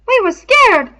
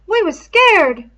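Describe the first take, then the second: First: High, loud, eager rush; excited. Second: High, loud, slow, dragged out; slow scared admission. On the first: Piggy excitedly offering Ralph an excuse, high and loud. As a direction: blurt it out as a way out. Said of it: "said Piggy excitedly". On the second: Piggy insisting to Ralph they were all afraid, slow and high. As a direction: lean on the fear, slowly. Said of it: "said Piggy". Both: A narrator's reading.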